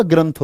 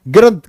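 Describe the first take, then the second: First: ग्रंथ said with the full nasal, as granth; ग्रंथ with a clear n before an aspirated th, granth; correct pronunciation. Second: ग्रंथ said without the nasal, as grat, the wrong way; ग्रंथ clipped to grat, with no n sound and no aspirated th; wrong pronunciation. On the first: Teacher corrects the students, ग्रंथ as granth with the nasal. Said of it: "ग्रंथ होता है बच्चे". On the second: Teacher shows the students the wrong way, ग्रंथ as grat without the nasal. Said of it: "ग्रंथ नहीं होता". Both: Shown as a demonstration.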